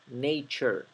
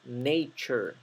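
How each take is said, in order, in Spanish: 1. La terminación se pronuncia con sonido ch. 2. La terminación se pronuncia con sonido ch.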